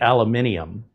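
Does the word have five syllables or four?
five. It is said with five syllables, extra i. This is the British way of saying it. "We don't add that extra I. In British language, they add an extra I"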